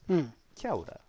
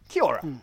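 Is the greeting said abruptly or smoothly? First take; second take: smoothly; abruptly. First: The greeting is said smoothly and softly. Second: The greeting is barked out abruptly. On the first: The speaker calls it right. "Kia ora sounds kind of sexy and exotic" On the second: The speaker calls it wrong. "They kind of bark it at you"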